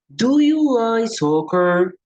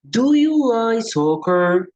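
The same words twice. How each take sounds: First: The question is said with melodic intonation. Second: The same.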